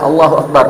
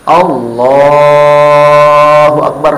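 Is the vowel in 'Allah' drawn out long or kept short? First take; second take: short; long. First: The vowel in Allah is kept short. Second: The vowel in Allah is drawn out long. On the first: "pendek saja"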